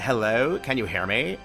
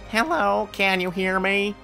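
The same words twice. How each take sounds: First: It is said in a Valley Girl voice. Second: It is said in a nerdy voice. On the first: "the Valley Girl" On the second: "the more nerdy"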